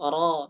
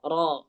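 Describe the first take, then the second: The two takes are said the same way.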